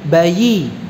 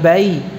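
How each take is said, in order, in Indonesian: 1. Bunyi y-nya jelas dan tegas. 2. Bunyi y-nya lemah dan tidak jelas. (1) "Y-nya kurang jelas" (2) "Bukan bayi"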